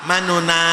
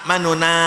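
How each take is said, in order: The two takes are said the same way.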